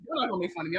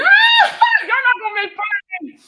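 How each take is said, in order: First: Said in the usual way. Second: High, loud, slow playful yell; mock outraged shout. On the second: Real, not acted. Streamer shouting back at viewers who mock her accent, mock outrage. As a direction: yell back at the teasing chat.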